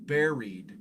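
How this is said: It is said rhyming with the fruit berry. "They use that pronunciation"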